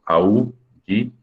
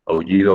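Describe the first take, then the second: First: "aullido" slowly split as au, lli, do; slow teacher's breakdown of "aullido"; syllable by syllable. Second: Said in the usual way. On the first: Shown as a demonstration. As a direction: keep au joined, pause between syllables of "aullido". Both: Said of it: "aullido va junto".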